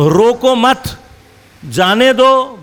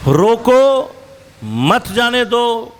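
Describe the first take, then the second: First: "روکو مت" as one phrase, clear break, then "جانے دو" raised; pause after مت. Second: "روکو" held up alone, clear break, then slow "مت جانے دو" as one phrase; pause after روکو. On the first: Lecturer shows the opposite meaning by punctuation, pause after مت. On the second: Lecturer shows how a comma flips meaning, pause after روکو. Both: Shown as a demonstration. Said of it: "جہاں آپ نے کاما لگانا ہے".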